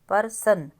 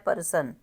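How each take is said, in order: First: The word begins with a full 'par' sound. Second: The word begins with a full 'par' sound.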